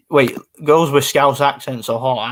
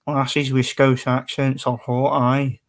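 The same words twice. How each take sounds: First: Said in the usual way. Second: Slow put-on Glaswegian accent; Glasgow accent. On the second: Streamer reading out a comment, playful slow Glaswegian. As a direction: read it out like a Glasgow local. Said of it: "if I grew up in Glasgow".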